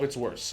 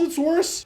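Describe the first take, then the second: First: "it's worse" dropped low and softer with a falling tune; flat dismissal. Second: "it's worse" pitched much higher with a rising tune; emphatic rise. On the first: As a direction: let "worse" fall low and final. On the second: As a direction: throw "worse" up high in disbelief. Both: Real, not acted. Contrasting two outcomes.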